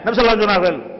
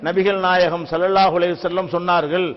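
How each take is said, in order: First: The words are run together and syllables dropped. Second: Every syllable is pronounced clearly and fully. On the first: The speaker calls it wrong. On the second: The speaker calls it right.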